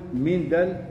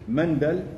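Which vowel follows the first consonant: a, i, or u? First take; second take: i; a. First: The first vowel is an i sound. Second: The first vowel is an a sound. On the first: "بالكسر" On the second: "بالفتح"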